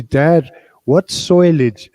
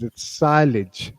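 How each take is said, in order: First: "soilage" said with an Irish oi vowel, slow; son's Irish pronunciation. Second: "silage" said plainly with an eye vowel, slow; correct pronunciation. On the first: Father retells son's question, slow Irish "soilage". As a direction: drag out "soilage" like a young Irish farm boy. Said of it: "he learned to speak with the Irish accent". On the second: Father corrects son, slow plain "silage". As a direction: set the record straight, slow "silage". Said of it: "that's Farmer Pierce's accent". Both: Retold or imitated.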